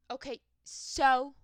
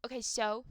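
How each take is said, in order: First: Louder, higher, drawn-out dismissive comeback; hammed-up unbothered retort, slow and loud; exaggerated so-what. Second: Mildly dismissive comeback; short so-what reply, only lightly pushed; unbothered retort. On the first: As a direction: stretch "so" into a big challenge. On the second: Acted. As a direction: toss it back as if unimpressed. Acting her unbothered reply, first take.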